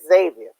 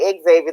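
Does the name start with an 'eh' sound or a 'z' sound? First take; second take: z; eh. First: The name starts with a 'z' sound. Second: The name starts with an 'eh' sound. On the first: The speaker calls it right. "They said no, no, no. It's Xavier" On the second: The speaker calls it wrong. "there's no E in front of Xavier. So the people say Xavier"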